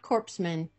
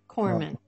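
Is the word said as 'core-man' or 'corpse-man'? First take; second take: corpse-man; core-man. First: It sounds like 'corpse-man', with p and s. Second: It sounds like 'core-man', with p and s silent. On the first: The speaker calls it wrong. "Not corpsman" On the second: The speaker calls it right. "I'm glad I pronounced that right"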